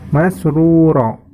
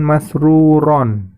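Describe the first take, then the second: First: The word ends on a plain vowel. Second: The word ends with an n sound. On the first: The speaker calls it right. "maka membacanya menjadi masruro" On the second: The speaker calls it wrong. "bukan masruron"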